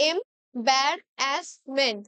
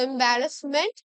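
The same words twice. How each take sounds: First: এম্বারাসমেন্ট drawn out very slowly, syllable by syllable; এম্বারাসমেন্ট spoken slowly, broken into syllables; split into syllables. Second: Said in the usual way. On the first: Shown as a demonstration. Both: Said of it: "এইভাবে divide করে পড়বে".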